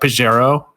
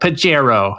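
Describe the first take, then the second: First: The j is pronounced as a soft sound. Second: The j is pronounced as a hard sound.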